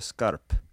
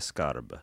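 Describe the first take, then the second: First: The final consonant is a voiceless p. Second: The final consonant is a voiced b. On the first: "wymawiając p zamiast b na końcu" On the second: "a nie skarb"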